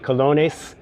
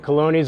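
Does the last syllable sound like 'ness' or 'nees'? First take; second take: ness; nees. First: The last syllable sounds like Spanish 'nes'. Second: The last syllable sounds like English 'nees'. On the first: The speaker calls it right. "it's actually colones" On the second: The speaker calls it wrong. "I think I said colonies"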